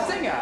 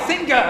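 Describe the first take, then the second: First: Said in the usual way. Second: SINGER said with a hard g, as sing-ger. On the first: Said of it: "instead of singer". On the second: Shown as a demonstration. Professor illustrates a foreign habit, hard g in SINGER. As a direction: sound a hard g inside "singer". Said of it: "say singer instead of singer".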